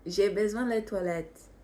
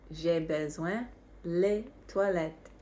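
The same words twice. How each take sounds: First: Said in the usual way. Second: "J'ai besoin les toilettes" repeated more slowly; slow it down so learners catch every word; slower repeat. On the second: Shown as a demonstration. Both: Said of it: "how do you think you would say".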